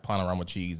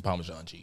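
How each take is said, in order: First: "Panorama" said in place of Parmesan; imitating mom's "Panorama cheese" slip; mom's country mispronunciation. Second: Said in the usual way. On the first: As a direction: say "Panorama" as if it were the cheese's name. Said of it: "she's just country. She'll say shit like". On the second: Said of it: "she mean, like, she trying to get".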